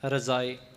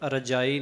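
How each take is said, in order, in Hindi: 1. बीच का व्यंजन z ध्वनि है। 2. बीच का व्यंजन सामान्य j ध्वनि है। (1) "ਜੱਜਾ ਜਿਹੜਾ ਹੈ ਉਹ ਬਿੰਦੀ ਵਾਲਾ ਵਰਤਿਆ ਜਾਏਗਾ" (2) "ਇਸ ਸ਼ਬਦ ਦਾ ਉਚਾਰਨ ਰਜਾਈ ਨਹੀਂ ਹੈ"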